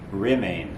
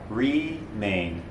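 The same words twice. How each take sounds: First: The first vowel is neutral, not spread. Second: The first vowel is spread wide. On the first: The speaker calls it right. "But the word is actually remain" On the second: The speaker calls it wrong. "with more of a east-west orientation on the first vowel"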